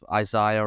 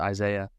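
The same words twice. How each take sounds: First: The name has a non-American pronunciation. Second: The name has an American pronunciation.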